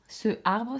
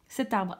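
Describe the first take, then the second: First: The vowel runs into 'arbre' without a t. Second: A t sound links into 'arbre'. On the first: The speaker calls it wrong. "Ce arbre, ça ne va pas" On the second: The speaker calls it right. "donc on dira cet arbre"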